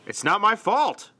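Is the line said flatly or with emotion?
with emotion. It is said with strong emotion.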